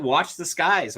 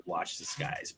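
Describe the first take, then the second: First: Said in the usual way. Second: Hushed ominous whisper. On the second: Retold or imitated. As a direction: breathe it like a secret warning. Ominous quote from Q.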